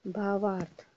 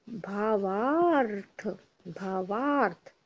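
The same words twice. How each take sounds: First: Said in the usual way. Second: भावार्थ drawn out slowly, each syllable stretched; भावार्थ said very slowly for dictation; slow spelling. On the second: Shown as a demonstration. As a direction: stretch भावार्थ for the class to write. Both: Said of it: "देखो".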